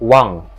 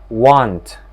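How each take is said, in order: First: The word ends with an ng sound. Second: The word ends with a t sound.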